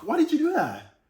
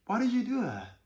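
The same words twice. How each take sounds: First: Sharp, high, accusing why; snapped accusing question; harsh accusing tone. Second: Smooth gentle question. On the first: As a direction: demand it like an accusation. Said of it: "look at the tonality". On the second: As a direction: ask it gently, inviting an answer. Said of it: "a little smoothness, a little gentleness". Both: Shown as a demonstration.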